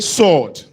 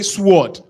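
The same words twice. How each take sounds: First: The W is silent in the word. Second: The W is sounded in the word. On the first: The speaker calls it right. "So we say sword. ... W is silent" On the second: The speaker calls it wrong. "we don't say sword"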